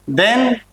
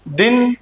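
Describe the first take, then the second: First: दिन said as "den", with an e vowel; Russian pronunciation. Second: दिन said as "din", with a short i; Hindi pronunciation. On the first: Teacher modelling the Russian word for day, दिन pronounced "den". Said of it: "वैसे ही देन". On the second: Teacher comparing with the Hindi word, दिन pronounced "din". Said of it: "Hindi वाला दिन". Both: Shown as a demonstration.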